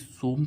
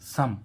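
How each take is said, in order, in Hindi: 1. स्वर 'oh' ध्वनि है। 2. स्वर एक छोटी 'uh' ध्वनि है। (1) "सोम तो नहीं पढ़ रहे ना" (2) "लेकिन इसको हम क्या पढ़ रहे हैं"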